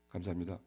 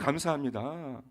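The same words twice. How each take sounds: First: It is said flatly, without any enthusiasm. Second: It is said warmly, with big enthusiasm. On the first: The thanks is only a formality. The speaker calls it wrong. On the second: The speaker is truly grateful. The speaker calls it right.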